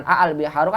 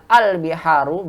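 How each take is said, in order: First: "a al biharu" with two distinct a sounds; separate double a. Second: "al biharu" with one a, no repeat; single opening a. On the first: Teacher showing what is not read, "a al biharu" unmerged. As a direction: split the opening vowels of "a al biharu". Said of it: "bukan a al biharu". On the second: Teacher showing how we read it, "al biharu" with one a. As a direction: begin "al biharu" straight on al. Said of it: "kita baca dengan". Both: Shown as a demonstration.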